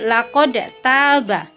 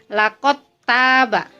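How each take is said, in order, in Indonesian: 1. Bunyi d dilepas dengan pantulan sebelum t. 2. Bunyi d menyatu menjadi bunyi t yang digandakan. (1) "tidak boleh menjadi kolkolah, tidak boleh dipantulkan, tidak boleh menjadi laqad taba" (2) "harus dibaca dengan idgham atau ditasydidkan"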